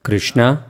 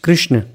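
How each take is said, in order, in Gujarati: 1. શબ્દ અંતિમ સ્વરથી પૂરો થાય છે. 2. અંતિમ સ્વર શબ્દમાંથી કાપી નાખવામાં આવે છે.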